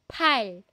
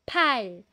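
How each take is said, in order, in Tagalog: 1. Binibigkas ang p nang may hangin. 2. Binibigkas ang p nang may hangin.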